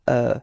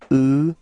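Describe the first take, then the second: First: The vowel is said with an open mouth. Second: The vowel is said with a closed mouth. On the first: The speaker calls it right. "this E U in uh, neuvième is actually open" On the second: The speaker calls it wrong. "It's not E"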